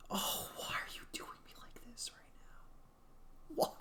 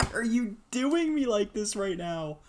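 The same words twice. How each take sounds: First: High, breathy whispered whine; high whispered plea; strained whisper. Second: High, loud plea; louder high-pitched complaint; exasperated complaint. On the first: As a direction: whimper it at the screen. Whining at the game. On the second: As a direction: yell the question at the screen. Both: Real, not acted.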